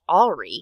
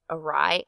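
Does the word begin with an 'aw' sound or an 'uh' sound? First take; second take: aw; uh. First: The word begins with an open 'aw' sound. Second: The word begins with a short 'uh' sound. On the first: The speaker calls it wrong. "I thought it should be pronounced awry" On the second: The speaker calls it right. "never thought that it would be pronounced awry"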